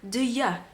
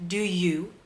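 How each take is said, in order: First: The second word is a reduced 'ya' sound. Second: The second word is a full 'you' sound. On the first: "people saying yeah instead of you" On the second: "there is two pronunciation that I often listen to"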